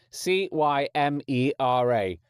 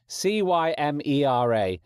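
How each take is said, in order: Both takes have the same delivery.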